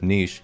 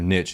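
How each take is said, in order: First: It is pronounced the British way. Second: It is pronounced the American way. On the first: "instead of" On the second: "American English is ... saying"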